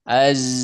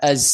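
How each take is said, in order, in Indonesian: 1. Z di akhir digetarkan dengan suara. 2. Z di akhir hanya didesiskan dengan napas. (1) "Nah suaranya z, mengalir" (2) "tidak az"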